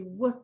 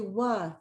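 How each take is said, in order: First: The consonant is said alone, with no vowel. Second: An uh vowel sound follows the consonant. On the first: The speaker calls it right. "They want to say w" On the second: The speaker calls it wrong. "They don't want to say wa"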